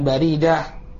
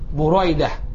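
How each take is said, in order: First: The first syllable has an 'a' vowel. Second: The first syllable has a 'u' vowel. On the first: The speaker calls it wrong. "bukan Baridah" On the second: The speaker calls it right. "Jadi bacanya jelas. Buraidah"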